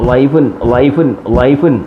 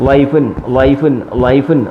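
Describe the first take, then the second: The two takes are said the same way.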